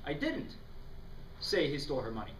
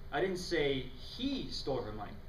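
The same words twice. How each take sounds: First: The emphasis falls on the word didn't. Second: The emphasis falls on the word say.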